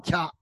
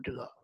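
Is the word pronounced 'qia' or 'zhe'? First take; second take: qia; zhe. First: The word is pronounced with the syllable qia. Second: The word is pronounced with the syllable zhe. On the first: This is the ancient reading of the word. The speaker calls it right. "实际在古代读掐" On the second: This is the modern reading of the word. The speaker calls it wrong. "不读折"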